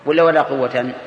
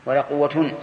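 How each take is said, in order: First: قوة said as "quwwatan"; accusative ending. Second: قوة said as "quwwatun"; nominative ending. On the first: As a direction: sound a clear -tan at the end of قوة. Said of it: "وجهين يجوز". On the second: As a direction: sound a clear -tun at the end of قوة. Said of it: "ولا قوة بالرفع". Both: Shown as a demonstration.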